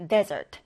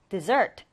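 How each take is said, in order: First: Desert with the stress on DE, then falling; stress on first syllable. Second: Dessert with the stress on SERT, rising; stress on second syllable. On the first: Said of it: "첫 음절의 강세를 두고요". (desert, 첫 음절 DE에 강세를 두고 끝을 내려 발음) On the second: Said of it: "강세가 뒷음절에 와서요". (dessert, 뒷음절 SERT에 강세를 두고 끝을 올려 발음) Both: Shown as a demonstration.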